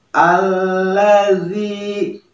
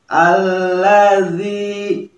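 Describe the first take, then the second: No difference in how they are said.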